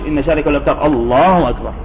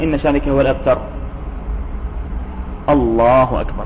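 First: The words run on with no pause. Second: A very short pause comes before the last phrase. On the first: The speaker calls it wrong. "مش" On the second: The speaker calls it right. "يعني سكتة يسيرة جدا"

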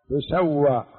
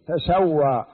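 First: It begins with tu, with a u vowel. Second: It begins with ta and a single s. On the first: The earth is made level over them. "هذا البناء للمجهول بضم التاء" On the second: The earth becomes level over them. "بفتح التاء وتخفيف السين"

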